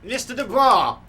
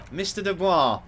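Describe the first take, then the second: First: Much louder, much higher shout; full shout of the name. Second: Louder, higher call of the name; firm raised call. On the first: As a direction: yell to break through his stupor. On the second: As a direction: call out to get his attention. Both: Acted. Trying to snap Harry out.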